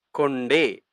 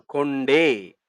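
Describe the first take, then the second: First: Said in the usual way. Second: கொண்டே said slowly and drawn out; slow model word. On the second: Shown as a demonstration. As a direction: stretch கொண்டே slowly for the class. (கொண்டே மெதுவாக நீட்டி)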